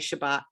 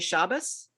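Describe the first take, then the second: First: It is said in a modern Hebrew way. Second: It is said in a traditional Eastern European way.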